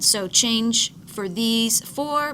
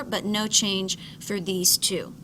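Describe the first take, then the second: First: "change" leaned on, whole line slow; stress on change. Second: "no" hit hard and falling, whole line slow; stress on no. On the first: Teacher contrasts the four changing forms, stressing "change". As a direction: slowly press "change" in "change for these four". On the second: Teacher sets the two unchanged forms apart, punching "no". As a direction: punch "no" in "no change for these two". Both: Shown as a demonstration. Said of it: "contrasting changed and unchanged forms".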